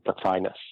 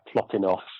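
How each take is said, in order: First: The name is said the usual English way. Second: The name is said in a Greek-like way. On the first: "in English the usual pronunciation is" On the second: "in the Greek it would be something like"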